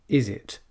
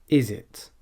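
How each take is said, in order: No difference in how they are said.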